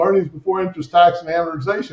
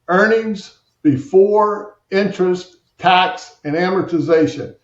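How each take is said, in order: First: It is said at a normal pace. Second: It is said slowly and deliberately.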